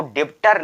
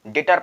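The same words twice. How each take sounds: First: डेप्टर with a p/b before the t; B sounded. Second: डेटर with no b, only t; silent B. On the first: Teacher recapping the misreading, b sounded in डेप्टर. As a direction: sound the middle consonant in डेप्टर. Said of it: "इसको डेप्टर नहीं पढ़ेंगे". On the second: Teacher recapping the right reading, silent b in डेटर. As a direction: drop the b, say डेटर. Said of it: "केवल डेटर पढ़ेंगे". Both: Shown as a demonstration.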